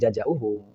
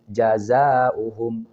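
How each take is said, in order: First: The second consonant is a j sound. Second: The second consonant is a z sound. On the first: The speaker calls it wrong. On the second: The speaker calls it right.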